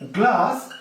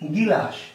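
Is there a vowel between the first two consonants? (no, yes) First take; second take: no; yes. First: The word starts with the cluster 'gl'. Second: A vowel splits the cluster: 'gilas'. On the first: This is the standard form of the word. "একটি শব্দ হচ্ছে কি গ্লাস" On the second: This is how people commonly say it. "এই গ্লাসকে আমরা বলছি গিলাস"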